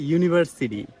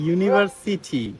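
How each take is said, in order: First: The t is a soft, d-like tap. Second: The t is a clear, hard t. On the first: This is how Americans say it. "ওরা বলে" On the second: This is how local speakers say it. "আমরা বলি"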